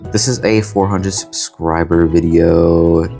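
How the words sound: It is said in a bored, monotone way.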